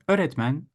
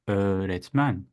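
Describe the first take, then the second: First: The first vowel is short. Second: The first vowel is lengthened. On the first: The speaker calls it wrong. "Instead of saying öğretmen" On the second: The speaker calls it right. "I'll say öğretmen"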